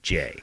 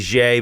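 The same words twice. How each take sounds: First: The name is said with a Kentucky pronunciation. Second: The name is said with a French pronunciation. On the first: This is how local Kentuckians came to say it. "no Kentuckian was going to say Jay, so it became" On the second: This is how the original French settlers said it. "The French came down, they say"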